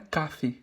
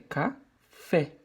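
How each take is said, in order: First: The stress is on the first syllable. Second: The stress is on the last syllable. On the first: The speaker calls it wrong. "Não é café" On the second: The speaker calls it right. "é café"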